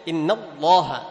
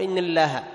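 First: The L in Allah is heavy and full. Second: The L in Allah is light and thin. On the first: The speaker calls it right. "لأنها سبقت بفتح" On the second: The speaker calls it wrong. "لا"

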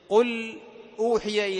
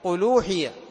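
First: The hamza is pronounced after the l. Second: The hamza drops and l takes its vowel.

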